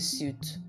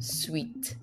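First: The word sounds like 'suit'. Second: The word sounds like 'sweet'. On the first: The speaker calls it wrong. "It's not a suit" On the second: The speaker calls it right. "It's called Eco Hotel and Suite"

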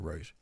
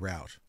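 First: The word rhymes with 'boot'. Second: The word rhymes with 'out'. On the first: This is how New Zealanders say it. "We'd say route" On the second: This is how Americans say it. "if an American's, that would be a new route"

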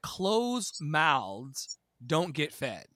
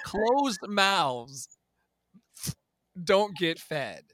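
First: The words run together, loosely articulated. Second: Each word is articulated crisply and clearly.

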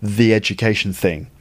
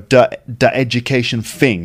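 First: The first word starts with a th sound. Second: The first word starts with a d sound. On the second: "sometimes he goes duh"

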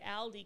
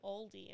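First: The word is said in an Australian accent. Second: The word is said in an American accent. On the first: The speaker calls it right. "the proper way to say Aldi" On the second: The speaker calls it wrong. "because they say Aldi"

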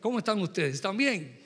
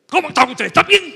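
First: It is said flatly, without much emotion. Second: It is said with lively, strong emotion.

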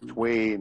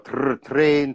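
First: The R sound is weakened toward a W. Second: The R sound is clearly and strongly pronounced. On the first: "the English, they kind of throw the R away" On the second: "in Scottish, we really pronounce the R sound"

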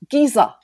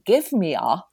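First: The words are run together into one word. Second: Each word is said fully and separately.

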